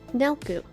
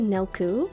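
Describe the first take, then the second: First: The stress is on the first syllable. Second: The stress is on the second syllable. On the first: The speaker calls it right. "emphasis on the first half" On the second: The speaker calls it wrong. "Some people say Nelku, and I don't like that"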